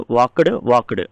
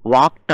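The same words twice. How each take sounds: First: "వాక్డ్" as two syllables, wak-udu; common wrong pronunciation. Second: "వాక్డ్" as one syllable, wakt; correct t ending. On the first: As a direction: add a u and a voiced d to "వాక్డ్". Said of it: "ఏమంటామంటే". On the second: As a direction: close "వాక్డ్" on a crisp kt. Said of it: "టీ వస్తుందండి". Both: Shown as a demonstration.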